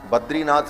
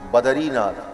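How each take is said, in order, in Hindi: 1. d और r के बीच कोई स्वर नहीं सुनाई देता। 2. d और r के बीच एक छोटा स्वर सुनाई देता है। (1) "बद्रीनाथ नहीं" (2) "बद्री शब्द ही गलत है"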